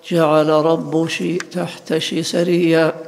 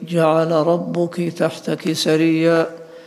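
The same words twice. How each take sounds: First: The suffixes are pronounced with a sh sound. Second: The suffixes are pronounced with a k sound. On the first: This is the Qays dialect form called kashkasha. "فإنهم يجعلون كاف المؤنث شينا" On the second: This is the standard form. "فيقولون في"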